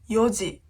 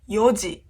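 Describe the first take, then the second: The two takes are said the same way.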